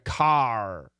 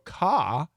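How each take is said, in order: First: The final R is clearly pronounced. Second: The final R is dropped. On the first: "In America, car" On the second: "In the U K, the R is really"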